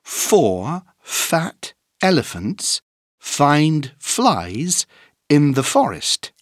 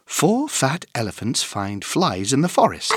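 First: It is said at a moderate speed. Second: It is said at a fast speed.

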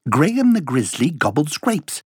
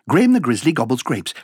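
First: It is said at a fast speed. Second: It is said at a very fast speed. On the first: "Allez plus vite" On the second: "Encore plus vite"

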